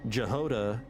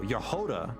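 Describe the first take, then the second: First: The name begins with a J sound. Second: The name begins with a Y sound. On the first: The speaker calls it wrong. "the English pronunciation issue with non-English words" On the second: The speaker calls it right. "pronounced with Y instead of J"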